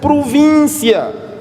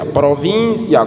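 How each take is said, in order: First: The word is articulated carefully, with clear diction. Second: The word is articulated carelessly, without clear diction. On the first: The speaker calls it right. "A palavra província lê-se província" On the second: The speaker calls it wrong. "não é assim, Gaspar"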